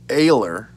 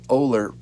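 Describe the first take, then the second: First: The name begins with an 'ay' vowel. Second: The name begins with an 'oh' vowel. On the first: This is how the man himself says his name. "I think that's the way he pronounces it" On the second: This is how the spelling suggests the name is said. "it sounds like Oler from what it's uh, spelt"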